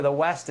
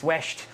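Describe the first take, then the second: First: Said in the usual way. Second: "west" said as "wesht"; Irish "west" with a shushed s, wesht; western Irish pronunciation. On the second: Retold or imitated. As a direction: turn the s in "west" into a sh. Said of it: "they kinda say the west".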